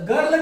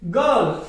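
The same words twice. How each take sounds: First: गर्ल with a sounded r; wrong pronunciation. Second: गर्ल with an "a" sound for r; correct pronunciation. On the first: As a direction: say गर्ल as "garl", r left in. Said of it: "गर्ल नहीं बोलना उसे". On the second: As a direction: say गर्ल as "gal", r silent. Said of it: "ए की sound आएगी". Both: Shown as a demonstration.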